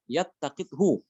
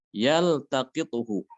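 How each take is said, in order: First: Yattaqithu with the lam merged into a doubled t; wrong merged lam. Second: Yaltaqithu with the lam said clearly before the t; slow, distinct l in Yaltaqithu, no merging; clear idhar lam. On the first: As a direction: say yattaqithu as the mistaken idgham. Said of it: "tidak boleh dibaca". (yattaqithu, lam dilebur ke ta (salah)) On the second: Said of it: "lamnya itu dibaca dengan, eh, idhar". (Yaltaqithu dengan lam dibaca jelas (idhar)) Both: Shown as a demonstration.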